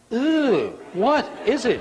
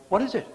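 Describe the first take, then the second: First: High, loud disgusted groan at something new. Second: Said in the usual way. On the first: Shown as a demonstration. Preacher mocking congregation, disgusted "ew what is it". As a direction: wrinkle your nose at it. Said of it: "What do we say? We say". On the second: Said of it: "I've read that in a nice way".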